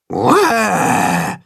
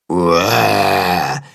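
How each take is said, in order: First: Drawn-out falling mock roar; demonstrated roar. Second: Low, drawn-out mock roar; copied roar. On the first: Tacho shows the monster how, with a mock roar. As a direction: give a scary "uah" roar. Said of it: "macht Tacho ihm vor". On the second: Willi copies Tacho's roar, low and drawn out. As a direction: repeat the roar in a low, lumbering voice. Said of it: "wiederholt Willi". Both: A narrator's reading.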